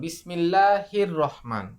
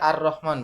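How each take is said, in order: First: The opening 'a' vowel is dropped and linked over. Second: The word begins with an audible 'a' vowel. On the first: Another word comes before it. "তাহলে কিন্তু আলিফ উচ্চারণ হয় না" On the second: The word starts the sentence. "যদি আমি প্রথমে বলি তাহলে আর রহমান বলি"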